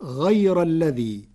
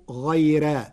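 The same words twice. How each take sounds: First: غير with a full heavy r; غير recited slowly with a thick r; heavy r on غير, Hafs style; Hafs reading. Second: غيرا with a light thin r; Warsh thin r. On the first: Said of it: "قرأ ورش كلمة "غير" بترقيق الراء". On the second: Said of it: "بترقيق الراء". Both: Shown as a demonstration.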